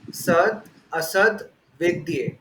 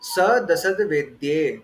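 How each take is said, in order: First: The words are split apart into separate parts. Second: The words are run together as one unit.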